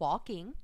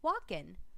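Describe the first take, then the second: First: The word ends with a full 'ng' sound. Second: The word ends with a plain 'n' sound. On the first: The speaker calls it right. "instead of walking" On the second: The speaker calls it wrong. "leave off the endings"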